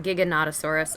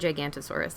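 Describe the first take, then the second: First: The name has six syllables, with 'no' after 'Giga'. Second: The name has five syllables, without 'no' after 'Giga'. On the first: The speaker calls it right. "or Giganotosaurus" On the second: The speaker calls it wrong. "I'm always saying it wrong"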